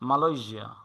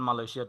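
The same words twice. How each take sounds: First: The ending is pronounced with a 'zh' sound. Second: The ending is pronounced with a 'sh' sound. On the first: This is the English way of saying it. The speaker calls it right. "এটাকে বলে মালয়েশিয়া" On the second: This is the Bengali way of saying it. The speaker calls it wrong. "বাংলায় যদি বলেন মালয়েশিয়া"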